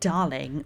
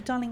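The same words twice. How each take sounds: First: It is said with a sleazy tone. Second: It is said warmly and kindly.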